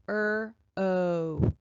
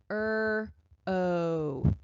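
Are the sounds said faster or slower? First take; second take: faster; slower. First: The sounds are said more quickly together. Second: The sounds are said slowly and apart.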